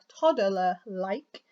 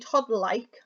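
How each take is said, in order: First: It is said slowly and deliberately. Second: It is said at normal speed.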